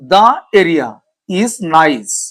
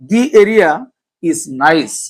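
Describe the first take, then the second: First: 'The' is said with a short 'thuh' vowel. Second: 'The' is said with a long 'thee' vowel.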